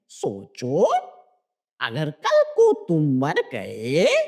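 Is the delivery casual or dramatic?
dramatic. It is said in a heavy, dramatic tone. It pushes the idea of death deep into the listener. "नहीं"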